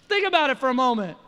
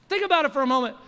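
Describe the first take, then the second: No difference in how they are said.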